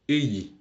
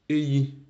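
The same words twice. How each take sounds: First: The pitch falls at the end of the verb. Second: The pitch rises at the end of the verb. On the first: The action is completed in the past. "Au passé composé, l'intonation du verbe d'action, elle descend" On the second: The action is happening now. "au présent, l'intonation du verbe d'action, elle monte"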